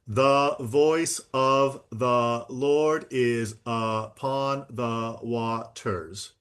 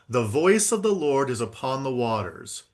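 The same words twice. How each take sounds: First: The words come out evenly, without natural rhythm. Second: The words follow a natural spoken rhythm. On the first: The speaker calls it wrong. "You did not say it like this" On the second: The speaker calls it right. "speech has a natural rhythm"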